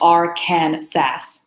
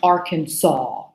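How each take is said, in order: First: The final syllable ends with an s sound. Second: The final syllable sounds like saw. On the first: "it's spelled Arkansas" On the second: "actually it's pronounced Arkansas"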